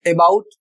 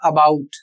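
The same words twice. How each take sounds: First: About with a full e start, eh-BOUT; about as e-baut, the mistaken reading; wrong about. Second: About with a light schwa start, uh-BOUT; about as ə-baut, unstressed first syllable; correct about. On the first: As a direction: say about with a clear e as its first vowel. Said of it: "about नहीं पढ़ना है". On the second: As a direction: say about with a weak short first vowel. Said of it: "इसका जो सही उच्चारण होगा". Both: Shown as a demonstration.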